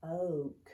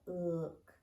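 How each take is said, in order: First: Oak with a long O like boat, as the tempting wrong reading; wrong long O demo. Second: Ook with the short oo of book, the correct vowel; right short oo sound. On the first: Teacher showing kids the wrong long O reading of look. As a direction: sound out Oak with the long O vowel. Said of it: "I could say it's gonna say the O sound". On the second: Teacher showing kids the real vowel sound in look. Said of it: "It's got look". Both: Shown as a demonstration.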